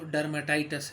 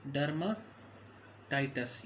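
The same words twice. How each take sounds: First: Said in the usual way. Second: dermatitis drawn out slowly in two parts; slow dictation. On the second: Shown as a demonstration. Teacher dictating a medical term to students, dermatitis said slowly in parts. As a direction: break dermatitis after derma, taking each part slowly.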